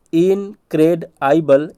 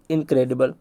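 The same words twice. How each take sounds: First: Slow, split इनक्रेडाइबल as in-cred-aibal; drawn-out spelling read; broken into parts. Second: Said in the usual way. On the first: Shown as a demonstration. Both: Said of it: "इसी तरीके से करा रहा हूँ".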